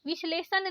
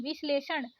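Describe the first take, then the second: First: विश्लेषण ending in plain न; wrong dental N. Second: विश्लेषण ending in curled-tongue ण; correct retroflex ण. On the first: Teacher showing learners the mistake, dental-N विश्लेषण. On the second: Teacher correcting learners, retroflex विश्लेषण. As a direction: curl back for ण in विश्लेषण. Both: Shown as a demonstration. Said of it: "नहीं".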